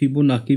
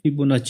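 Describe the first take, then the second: First: The last consonant is a 'k' sound. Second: The last consonant is a 'ch' sound. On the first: The speaker calls it wrong. "इसको कभी कभी हम लोग फिबोनाकी भी pronounce करते हैं" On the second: The speaker calls it right. "इसकी actual pronunciation फिबोनाची होती है"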